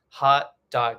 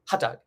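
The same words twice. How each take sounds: First: It is said at a normal pace. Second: It is said very quickly.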